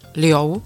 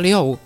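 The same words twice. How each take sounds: First: The syllable is said with a high level tone. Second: The syllable is said with a falling tone. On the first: It means to flow. "v prvním tónu" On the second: It means six. "ve čtvrtém tónu"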